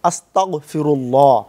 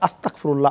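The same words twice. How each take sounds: First: The consonant after 'asta' is a guttural gh. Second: The consonant after 'asta' is a hard k. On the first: It asks God for forgiveness. The speaker calls it right. "এখানে যে বলতে হবে আস্তাগফিরুল্লাহ" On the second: It asks God to make one a disbeliever. The speaker calls it wrong. "কাফ দিয়া বলি"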